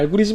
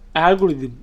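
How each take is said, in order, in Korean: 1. 마지막 음절은 'jeum'으로 발음합니다. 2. 마지막 음절은 'deum'으로 발음합니다. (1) "그냥 알고리즘이라고 합니다. 한국말로 발음하는 거죠" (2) "발음상 알고리즘 이러니까 뭐 듬이랑 비슷한 것 같기도 한데"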